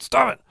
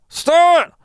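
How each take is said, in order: First: It is muttered quietly, lips barely moving. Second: It is said loudly, almost shouted.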